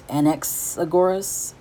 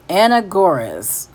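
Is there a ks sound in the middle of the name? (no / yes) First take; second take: yes; no. First: The name is said with a ks sound. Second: The name is said without a ks sound. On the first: "I don't know if I need to be pronouncing the X or not" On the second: "I don't know if I need to be pronouncing the X or not"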